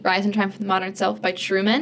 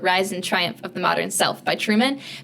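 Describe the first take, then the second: First: The title is said at a quicker pace. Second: The title is said at a slower pace.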